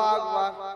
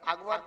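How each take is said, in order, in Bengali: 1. দ্বিতীয় সিলেবলে দীর্ঘ 'a' স্বরধ্বনি আছে। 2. দ্বিতীয় সিলেবলে 'o' এর মতো একটি স্বরধ্বনি আছে। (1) "তবে আল্লাহু আকবার" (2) "আকবর তো গ্রামের লোকের নাম"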